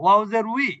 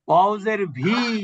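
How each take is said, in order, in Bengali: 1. সিলেবলটি w ধ্বনি দিয়ে শুরু হয়। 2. সিলেবলটি v ধ্বনি দিয়ে শুরু হয়। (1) "উই বললে যথেষ্ট" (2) "আমার বি ভি কোনোটাই তো আমার দরকার নেই"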